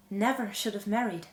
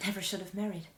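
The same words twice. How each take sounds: First: "Never" given more weight, with a slight break after; firmer regret. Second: Hushed, regretful aside; quiet regret. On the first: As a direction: stress on "Never", set apart. Regretful repeat, second take firmer. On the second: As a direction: confess it softly to yourself. Regretful repeat, first take softer. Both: Acted.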